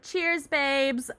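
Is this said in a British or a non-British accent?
non-British. It is said in the speaker's usual non-British accent. "I should have done that in a in a British accent"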